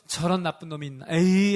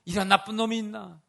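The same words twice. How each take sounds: First: Disgusted dismissal. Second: Reproachful scolding. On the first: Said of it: "하고 외면해야 되는 순간". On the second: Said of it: "책망하는 눈빛으로?". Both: Pretend.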